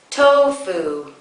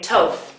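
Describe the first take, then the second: First: Both syllables are fully voiced. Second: The second syllable is cut off. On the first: The speaker calls it right. "continue voicing through to the second syllable" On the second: The speaker calls it wrong. "you might say tof"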